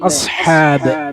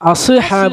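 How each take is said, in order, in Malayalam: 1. s മിനുസമാണ്, ബൗൺസ് ഇല്ല. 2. s bounce ചെയ്യുന്ന പ്രതിധ്വനിയോടെ അവസാനിക്കുന്നു.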